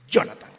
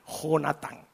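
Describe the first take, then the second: First: The name begins with a soft 'y' sound. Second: The name begins with a harsh 'h' sound. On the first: This is the fashionable local version of the name. "Y Jonatán con Y, le hubiéramos puesto" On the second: This is the original form of the name. "lo voy a pronunciar tal cual dice la Escritura"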